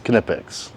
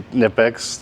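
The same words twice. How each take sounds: First: The first K is clearly pronounced. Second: The first K is silent. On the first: It follows the original German pronunciation. The speaker calls it right. "but for those of you out there, it's Knepex" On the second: It is the easier, familiar way to say it. The speaker calls it wrong. "I'm probably gonna say Knepex for my own sanity"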